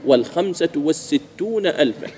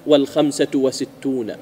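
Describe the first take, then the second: First: وستون said slowly as was-sittūna, doubled s; corrected form. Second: وستون said slowly without the article; slow counterexample, plain wa-sittūna in وستون; wrong form, article dropped. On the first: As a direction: model وستون with the article's long s. (تصحيح بنطق بطيء) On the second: (مثال خاطئ بنطق بطيء) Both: Shown as a demonstration. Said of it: "ما تقول".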